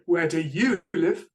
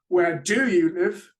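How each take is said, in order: First: The stress falls on the word you. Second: The stress falls on the word do. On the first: "I stress the you" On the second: "I've stressed the do"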